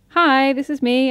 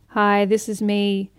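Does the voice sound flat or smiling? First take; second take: smiling; flat. First: The voice is bright, lively and smiling. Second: The voice is flat, unsmiling and somewhat monotone. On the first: The speaker calls it right. "I'm chatting and I have my cheekbones up and it's really nice to listen to" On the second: The speaker calls it wrong. "I don't have my cheekbones up. I'm not smiling"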